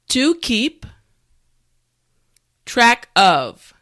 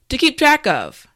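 First: The phrase is said slowly. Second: The phrase is said at normal speed. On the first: "repeat after me" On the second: "now let's say it at a normal pace"

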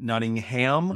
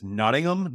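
First: The name is said with an American pronunciation. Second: The name is said with a British pronunciation. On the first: The speaker calls it wrong. "not Nottingham" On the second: The speaker calls it right. "Like a British, it's Nottingham"

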